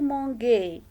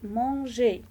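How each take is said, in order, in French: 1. Le g est un son dur, comme dans go. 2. Le g est un son doux, comme dans beige. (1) "On ne peut pas dire manger" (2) "pour bien prononcer manger"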